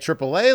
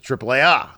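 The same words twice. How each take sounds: First: It is said with an English pronunciation. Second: It is said with a Spanish pronunciation. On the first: It sounds like the roadside assistance company. "like it's a freaking roadside assistance company" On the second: It is how people in Mexico say it. "which is I think how they pronounce it? In Mexico"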